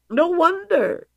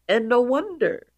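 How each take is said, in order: First: High emphatic repeat. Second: Said in the usual way. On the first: Real, not acted. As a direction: say it again way higher.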